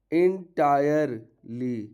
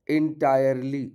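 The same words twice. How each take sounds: First: Entirely stretched out very slowly, each syllable clear; slow model word. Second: Said in the usual way. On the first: Shown as a demonstration. (entirely को बहुत धीरे, हर अक्षर साफ़)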